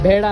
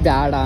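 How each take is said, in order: First: The first syllable has a plain 'e' vowel. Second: The first syllable has a 'ya' glide vowel. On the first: "ಬೇಡ ಅನ್ನೋ ಬದಲು" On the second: "ಬ್ಯಾಡ ಅಂತೀರಾ?"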